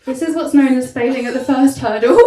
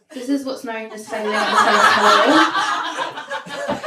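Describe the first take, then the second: First: Much louder, laughing on the last words; louder retry. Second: Loud and slow, breaking into laughter; laughing through it. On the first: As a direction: hit the whole line hard while laughing. Repeated punchline, louder. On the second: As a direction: push the line out while cracking up. Repeated punchline, laughing. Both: Real, not acted.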